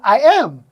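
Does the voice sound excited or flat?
excited. It is said excitedly, with the voice rising. "Her voice went up. She showed excitement"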